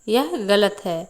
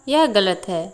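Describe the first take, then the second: The two takes are said the same way.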